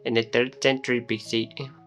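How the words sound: It is spoken in an Indian accent. "into Indian accent"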